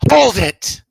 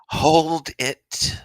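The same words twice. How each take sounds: First: It is shouted dramatically like an Ace Attorney character. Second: It is said in a plain, ordinary voice.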